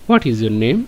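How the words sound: It is said with a question intonation. The name is being asked for. "আর প্রশ্ন যখন করব"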